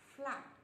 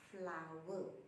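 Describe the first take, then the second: First: The word is not said like 'flower'. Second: The word is said exactly like 'flower'. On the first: This is the common local way of saying it. "here we pronounce as flour" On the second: This is the standard way of saying it. "actually the pronunciation for this word is flower"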